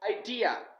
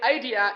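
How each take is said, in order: First: The stress is on the second syllable. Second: The stress is on the first syllable. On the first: The speaker calls it right. "The D should be stressed. It is the second syllable" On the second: The speaker calls it wrong. "don't say idea"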